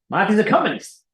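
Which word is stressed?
communist. The stress is on the word communist.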